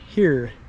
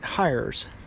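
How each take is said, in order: First: It is said the French way, sounding like 'here'. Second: It is said with an English-style pronunciation. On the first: "They would pronounce it something closer to" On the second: "I would pronounce it"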